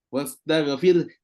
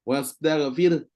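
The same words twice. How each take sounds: Both takes have the same delivery.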